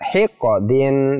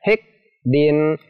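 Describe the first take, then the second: First: The qaf is released with a bouncing echo. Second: The qaf is held without any echo. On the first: The speaker calls it right. "dibaca hiqqadin, dipantulkan" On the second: The speaker calls it wrong. "tidak boleh dibaca hiqdin"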